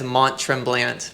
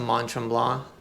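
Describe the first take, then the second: First: The name has an American English pronunciation. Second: The name has a French-style pronunciation. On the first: The speaker calls it wrong. "Americans will read it as" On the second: The speaker calls it right. "I try to pronounce it right"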